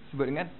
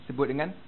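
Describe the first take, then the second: The two takes are said the same way.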